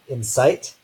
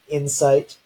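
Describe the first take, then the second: First: The stress is on the second syllable. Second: The stress is on the first syllable. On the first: "or we can have final stress" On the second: "initial stress in English, so the first syllable is stressed"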